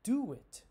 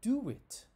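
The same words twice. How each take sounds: First: A W sound links the two words together. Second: A W sound links the two words together.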